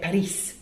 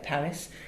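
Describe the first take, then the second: First: It is said with a Spanish pronunciation. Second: It is said with an English pronunciation. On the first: "click on Spanish" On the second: "how English people say Paris, click on English"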